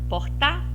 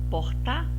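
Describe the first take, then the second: First: The stress is on the last syllable. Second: The same.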